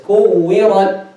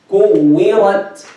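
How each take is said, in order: First: The consonant is released without an audible breath. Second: The consonant is released with an audible breath. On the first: The speaker calls it wrong. "If you don't make the hams" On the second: The speaker calls it right. "we make breath with it, to make it heard"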